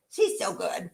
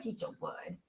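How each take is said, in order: First: Said in the usual way. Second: Whispered praise, nearly voiceless; soft fond whisper. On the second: Real, not acted. Praising the dog to viewers, soft whisper. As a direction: breathe it softly, fond of the dog.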